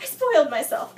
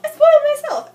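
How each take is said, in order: First: Said in the usual way. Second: Much louder, much higher repeat; anguished self-blaming outburst; frustrated cry. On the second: Real, not acted. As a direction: blurt it out, exasperated at yourself.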